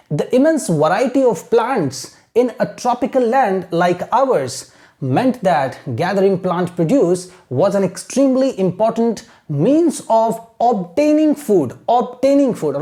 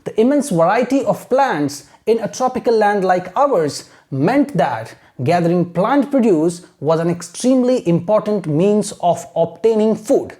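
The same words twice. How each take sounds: First: Slow, deliberate read-aloud in short phrases; careful teacher's reading; model reading with pauses. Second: Slow, steady model reading in long phrases; measured, continuous teacher's read-aloud; reading without stopping. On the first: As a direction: read slowly for pupils to imitate, breaking between phrases. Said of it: "आपको imitate करना है". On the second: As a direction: carry the sentence through evenly for learners. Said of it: "this is how we have to read". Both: Shown as a demonstration.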